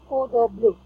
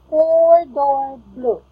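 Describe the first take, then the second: First: The phrase is said quickly and rushed. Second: The phrase is said slowly and carefully. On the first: The speaker sounds like they are struggling with the words. The speaker calls it wrong. "not four door blue" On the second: The speaker avoids sounding confused by the words. The speaker calls it right. "you can pronounce it slowly. Like four door blue"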